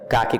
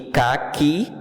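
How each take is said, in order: First: The stress is on the first syllable. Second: The stress is on the last syllable. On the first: It names a brownish color. "caqui com acento é a cor" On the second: It names a fruit. "caqui com qui forte, sendo oxítona"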